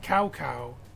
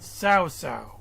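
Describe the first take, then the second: First: The name is said like 'cow cow'. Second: The name is said like 'sao sao'. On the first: The speaker calls it wrong. "not Cow Cow" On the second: The speaker calls it right. "but Sao Sao"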